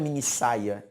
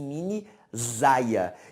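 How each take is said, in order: First: The middle consonant is a voiceless s sound. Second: The middle consonant is a voiced z sound. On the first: The speaker calls it right. "a minha leitura não é mini saia" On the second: The speaker calls it wrong. "e sim mini zaia"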